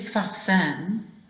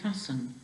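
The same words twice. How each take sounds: First: The stress is on the last syllable. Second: The stress is on the first syllable. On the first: The speaker calls it wrong. "You don't say fasten" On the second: The speaker calls it right. "you say fasten. So that last syllable is not a stressed syllable"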